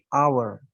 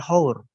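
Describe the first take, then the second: First: The word begins with a vowel sound. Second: The word begins with an h sound. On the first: The speaker calls it right. "tapi "hour". Pengucapannya terlihat seperti menggunakan huruf hidup" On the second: The speaker calls it wrong. "bukan "hour""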